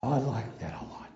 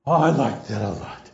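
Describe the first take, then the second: First: Whispered. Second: Emphatic. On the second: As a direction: repeat it aloud with real relish. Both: Real, not acted. Savoring his own story.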